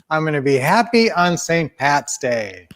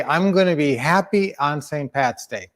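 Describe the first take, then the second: First: Emphatic group recitation, leaning on "happy"; spoken affirmation. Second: Said in the usual way. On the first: Shown as a demonstration. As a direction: declare it for everyone to join in. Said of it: "let's say a good affirmation today". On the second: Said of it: "Let's say".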